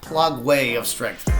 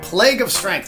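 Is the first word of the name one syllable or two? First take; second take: two; one. First: The first word is said as two syllables. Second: The first word is said as one syllable.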